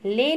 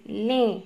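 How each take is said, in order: First: ले said with a plain oral e, no nasal; ले without nasal. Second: लें said with a nasalised final vowel, lẽ; लें with nasal e; nasal ending. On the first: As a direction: say ले flat with no nasal sound, as the wrong form. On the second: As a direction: bring the nasal back onto लें. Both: Shown as a demonstration. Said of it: "ले नहीं".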